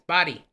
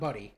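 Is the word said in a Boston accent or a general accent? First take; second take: Boston; general. First: The word is said in a Boston accent. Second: The word is said in a general American accent. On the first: The speaker calls it right. "It's body" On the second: The speaker calls it wrong. "It's not buddy"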